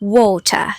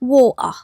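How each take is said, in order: First: The t sound in the middle is pronounced. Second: The t sound in the middle is dropped. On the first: "ความเป็นอังกฤษนะคะ เขาจะออกเสียงว่า" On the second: "หรือบางคนนะแม่บ่ออกเสียงตัวที่เลยนะคะกลายเป็น"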